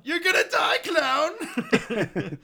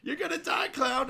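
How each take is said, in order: First: Very high, loud mock rage breaking into laughter; angry yell, laughing. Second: Mock angry yell. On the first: Quoting Happy threatening the clown, yelling through laughter. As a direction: yell the threat while cracking up. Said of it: "another iconic, uh, line". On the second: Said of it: "but yeah".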